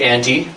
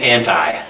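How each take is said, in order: First: It is said the Canadian way. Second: It is said the American way.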